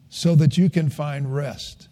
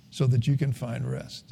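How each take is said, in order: First: Said in the usual way. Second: Hushed echo of the phrase; softer repeat. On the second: Shown as a demonstration. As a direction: echo the line much softer and lower. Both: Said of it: "repeats line softer".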